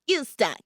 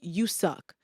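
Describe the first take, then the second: First: It is said in a funny cartoon voice. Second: It is said in a normal, serious voice. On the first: The thought is made laughable so it is not taken seriously. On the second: The thought feels serious and believable.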